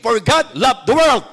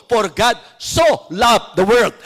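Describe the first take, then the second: First: Said in the usual way. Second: "so" stretched slow and weighty; slow and deliberate, "so" given full emphasis; stress on so. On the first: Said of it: "Pwede naman sabing". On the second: Shown as a demonstration. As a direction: press down on "so" to show the weight of love. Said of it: "Pero niliwanag dito".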